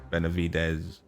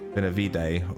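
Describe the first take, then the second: First: The name ends with a clear final s sound. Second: The name ends without a final s sound. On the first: "or do you say the Benav Benavides?" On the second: "Do you pronounce it at the end though?"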